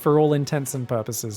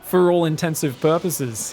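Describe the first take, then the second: First: The middle is said as two words, 'intents and'. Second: The middle words blur into one word, 'intensive'. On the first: The speaker calls it right. "saying it properly" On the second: The speaker calls it wrong. "explained something I've been saying wrong"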